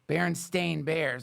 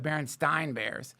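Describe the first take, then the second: First: The name ends with a 'stain' sound. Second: The name ends with a 'stine' sound. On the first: The speaker calls it right. "So that's Stain" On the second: The speaker calls it wrong. "not the Berenstein Bears"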